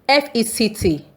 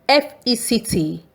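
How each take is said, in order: Both takes have the same delivery.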